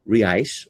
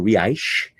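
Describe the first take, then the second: First: It is said without a Rio accent. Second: It is said with a Rio accent.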